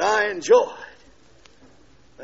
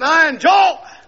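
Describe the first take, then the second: First: "I enjoy it" whispered, very slow; preacher whispering "I enjoy it" to the crowd. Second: "I enjoy it" shouted high and loud; preacher shouting "I enjoy it" in joy. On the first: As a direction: breathe "I enjoy it" out slowly. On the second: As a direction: belt out "I enjoy it". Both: Shown as a demonstration. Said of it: "Some of you endure it".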